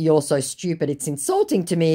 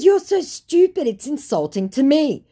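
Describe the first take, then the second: First: Said in the usual way. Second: High, loud, exasperated insult; affronted. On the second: Retold or imitated. Woman insulting the scammer, affronted. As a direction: act personally offended by stupidity.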